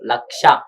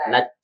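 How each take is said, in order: First: The middle sound is a 'ksh' cluster. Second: The middle sound is a plain 'ch'. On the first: The speaker calls it right. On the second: The speaker calls it wrong. "లచ్చ కాదు"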